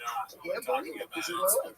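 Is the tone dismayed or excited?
excited. It is said in an excited, delighted tone.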